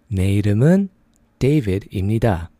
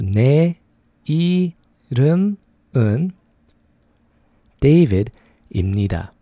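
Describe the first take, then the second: First: It is said at a faster pace. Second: It is said at a slower pace.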